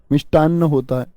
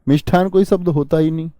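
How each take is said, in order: First: मिष्टान्न with plain ट and a long doubled न्न; मिष्टान्न, crisp unaspirated ट, long न्न; correct pronunciation. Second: मिष्ठान with aspirated ठ, said as the wrong form; मिष्ठान spoken with a breathy ठ to show the error; मिष्ठान, aspirated ठ, the common mistake; wrong spelling said. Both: Shown as a demonstration.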